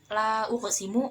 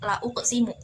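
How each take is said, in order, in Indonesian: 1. Vokal setelah l itu panjang. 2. Vokal setelah l itu pendek. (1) "menggunakan alif seperti tadi" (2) "tanpa alif, tidak panjang huruf lam"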